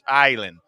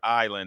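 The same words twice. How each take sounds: First: The first vowel of island is drawn out. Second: The first vowel of island is short. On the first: The speaker calls it right. "the island has a couple of I's in it" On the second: The speaker calls it wrong. "It's not really island"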